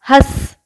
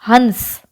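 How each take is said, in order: First: The nasal sound is said lightly and softly. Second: The nasal sound is said strongly and fully. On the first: It means to laugh. "बहुत ज्यादा stress नहीं देते उस पे" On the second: It means a swan. "वहां पे हम बहुत ज्यादा स्ट्रेस देते हैं"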